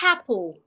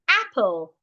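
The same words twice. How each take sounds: First: The word starts with an added h sound. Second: The word starts directly with the vowel. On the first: The speaker calls it wrong. "Instead of saying apple, which is wrong" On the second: The speaker calls it right. "say apple ... Do not pronounce the H"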